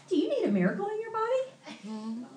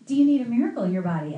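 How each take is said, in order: First: High-pitched mimicked question, rising at the end; earnest evangelist friend. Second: Quick, louder imitated question, falling at the end; friend's question retold. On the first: Friend asks cashier out of nowhere, high mimicked question. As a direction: imitate her asking sweetly high. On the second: Pastor retells friend's question, quick and loud. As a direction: rattle off her question firmly.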